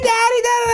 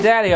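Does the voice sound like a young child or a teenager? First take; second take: young child; teenager. First: It is said in a small child's voice. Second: It is said in a teenage girl's voice. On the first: The speaker is a young girl before puberty. "Girls go through puberty stages in the sense that their voice changes too" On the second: The speaker is a girl after her voice has changed. "All of a sudden"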